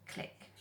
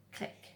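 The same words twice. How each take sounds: The two takes are said the same way.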